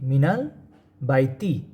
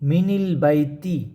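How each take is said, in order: First: The linking vowel after min is a. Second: The linking vowel after min is i. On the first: The speaker calls it right. "নুনে ফাতা হবে" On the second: The speaker calls it wrong. "এখানে যদি কাসরা দেওয়া হতো কী হইতো?"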